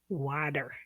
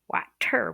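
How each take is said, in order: First: The middle consonant sounds like a D. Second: The middle consonant is a clear T sound. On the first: This is how it sounds in real conversation. "you pronounce it like a D" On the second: This is how a reader expects it from the spelling. "water with a T"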